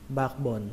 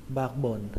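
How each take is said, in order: Both takes have the same delivery.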